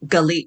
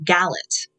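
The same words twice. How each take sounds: First: Galit said ga-LEET with a light first syllable and a long ee; correct Hebrew pronunciation. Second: Galit said as GAL-it with a flat English a, stress on the first syllable; anglicized mispronunciation. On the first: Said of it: "Most people pronounce it Galit until Galit would correct them". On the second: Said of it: "unless you know Hebrew, you would pronounce it". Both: Shown as a demonstration.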